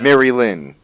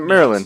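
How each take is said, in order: First: It is said as two separate words. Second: It is said as one joined word. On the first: The speaker calls it right. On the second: The speaker calls it wrong. "It's not Marilyn"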